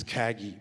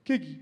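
First: Said in the usual way. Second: Put-on "Kegi" in a friend's strong accent; accented nickname. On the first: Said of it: "It means Kagi". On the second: Showing what his friend calls him, "Kegi" in accent. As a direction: say "Kegi" with a short "e" in the first syllable. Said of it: "he speaks in a strong accent".

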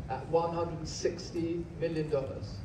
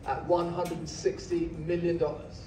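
No difference in how they are said.

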